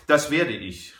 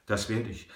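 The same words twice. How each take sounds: First: Lauter, höher ausrufen; ausgerufen. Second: Said in the usual way. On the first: A narrator's reading. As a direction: WERDE betont und laut gerufen. (laut ausgerufen) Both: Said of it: "rief der Bankier aus".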